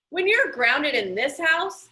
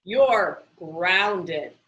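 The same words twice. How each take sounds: First: A touch of a stern dad laying down the law; mild stern father voice; stern father rule. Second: You're grounded, falling firmly on you're; lightly voiced stern father closing the matter; understated stern father; firm final word. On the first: Retold or imitated. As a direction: stress on you're with a rise. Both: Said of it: "his father had said".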